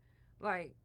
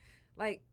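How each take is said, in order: Both takes have the same delivery.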